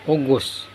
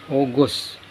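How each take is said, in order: Both takes have the same delivery.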